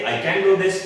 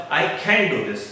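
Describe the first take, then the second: First: "can" as plain ken with an unpuffed k; positive can. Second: "can" for can't, aspirated khen without t; negative contracted can't. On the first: Teacher contrasting yes and no, plain can. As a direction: keep "can" light before "do". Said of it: "मैं ये कर सकता हूं". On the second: Teacher showing the negative, khen for can't. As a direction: puff and weight "can" to mean cannot. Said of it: "contracted form use करनी है". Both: Shown as a demonstration.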